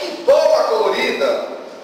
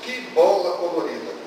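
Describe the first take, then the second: First: It is read with lively, expressive intonation. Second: It is read flatly, with little expression. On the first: The speaker calls it right. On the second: The speaker calls it wrong.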